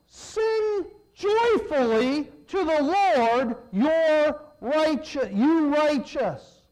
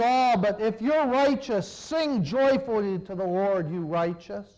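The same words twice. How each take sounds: First: Loud, slow proclaiming; fervent reading. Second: Said in the usual way. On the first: Acted. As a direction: proclaim it like a call to worship. Reading psalm with fervor.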